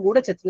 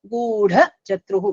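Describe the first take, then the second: First: The second word starts with a 'ch' sound. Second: The second word starts with a 'j' sound. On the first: The speaker calls it wrong. "I've heard it as Gudha Chatru, Gudha Chatru. That is wrong" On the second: The speaker calls it right. "Very clearly, correctly we must pronounce this"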